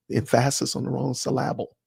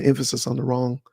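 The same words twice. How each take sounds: First: "emphasis" as em-PHA-sis, "syllable" as sy-LAB-ble; misplaced syllable stress. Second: Said in the usual way. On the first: Shown as a demonstration. Joking to viewers about misread scripture, "emphasis" and "syllable" stressed on their second syllables.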